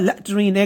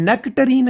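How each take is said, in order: First: It is said in a clipped British accent. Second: It is said in a plain South Asian accent. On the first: "गोरों की British accent" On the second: "ये तो नेक्टरीन है"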